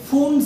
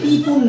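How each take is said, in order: First: The name starts without any p sound. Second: The name starts with an audible p sound. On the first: The speaker calls it right. "মানে পি উচ্চারণ হবে না" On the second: The speaker calls it wrong. "এটা হচ্ছে পি ফুন না"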